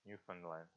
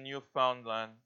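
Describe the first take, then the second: First: "Newfoundland" with a reduced middle, NEW-fun-land; corrected pronunciation. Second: Said in the usual way. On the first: Shown as a demonstration. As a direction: repeat "Newfoundland" softly and lower, middle like "fun" rather than "found". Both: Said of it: "What's the right way to, to pronounce it".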